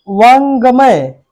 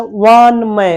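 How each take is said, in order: First: वांगमय drawn out with a g; wrong pronunciation. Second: वानमय slowly, nasal n and no g; correct pronunciation. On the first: Teacher showing the faulty word, slow, with audible g. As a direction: stretch वांगमय as 'vaang-ga-may'. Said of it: "नहीं". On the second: Teacher giving the right word, slow, without g. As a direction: go from n straight to 'may' in वानमय. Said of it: "इसका शुद्ध रूप लिखा गया". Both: Shown as a demonstration.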